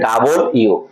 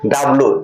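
First: The name is said in full. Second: The name is shortened to two syllables. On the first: The speaker calls it right. "এর উচ্চারণ হবে ডাবল ইউ" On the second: The speaker calls it wrong. "এটাকে অনেকে বলে ডাব্লু"

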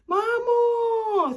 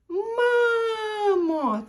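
First: The final O vowel is held long. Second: The A vowel is held long. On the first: "тут вже продовжує звук О" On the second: "Потім він каже довге, мамо, так, довге А"

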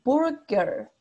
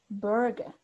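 First: The R sound is clearly pronounced. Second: The R is dropped, replaced by an A sound. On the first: "en el inglés de Estados Unidos es burger. Ahí marcan la R" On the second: "como que no pronuncia la R, es como que la cambia por una A"

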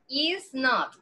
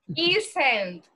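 First: It is said as two separate words. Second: It is said as one contracted word. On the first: "is not es esta, está separado" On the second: "Esa forma corta se pronuncia isn't"

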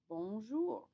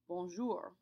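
First: The final R is barely heard. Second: The final R is clearly emphasized. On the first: This is common in southern France. "You don't really hear the R sound very much" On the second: This is common in northern France. "you can emphasize the R much more"

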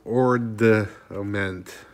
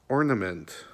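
First: A d sound is heard before the n. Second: No d sound is heard before the n. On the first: The speaker calls it wrong. "I thought it was ornament" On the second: The speaker calls it right. "but it's ornament, O-R-N-A-M-E-N-T"

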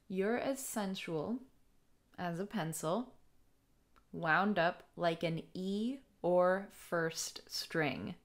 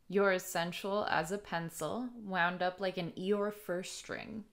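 First: The line is said at a slow pace. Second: The line is said at a normal pace.

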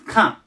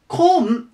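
First: The vowel sounds like 'a' as in kan. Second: The vowel sounds like 'o' as in kon. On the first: The speaker calls it right. "カです。" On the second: The speaker calls it wrong. "コンではなくて"

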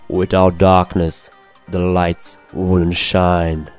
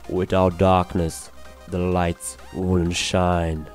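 First: The voice is louder and brighter, without background noise. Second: The voice is quieter and duller, with background noise.

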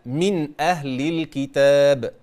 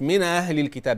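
First: The glottal stop before 'ahl' is clearly pronounced. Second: The glottal stop before 'ahl' is weak or missing. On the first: The speaker calls it right. "بين الهمزة" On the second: The speaker calls it wrong. "مش"

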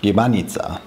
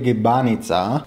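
First: That syllable is kept short. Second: One syllable is held long. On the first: The speaker calls it right. "That syllable is actually short" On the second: The speaker calls it wrong. "what I said in the beginning is completely wrong"

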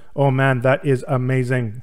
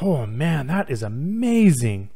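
First: It is said in a flat, monotone way. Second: It is said with lively, varied, excited intonation.

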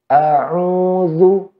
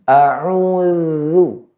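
The two takes are said the same way.

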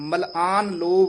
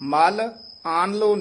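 First: The syllables are joined together without a break. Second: The syllables are split apart with a break. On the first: The speaker calls it right. "मलआन कट्ठा बोल देना है" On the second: The speaker calls it wrong. "वखरा नहीं करना"

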